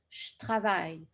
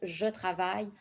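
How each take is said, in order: First: The vowel in "je" is dropped. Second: The vowel in "je" is fully pronounced. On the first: It is how Quebec speakers actually say it. "vos locuteurs québécois, vont vous dire" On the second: It is the easier form for a learner. "si c'est plus facile pour vous de dire"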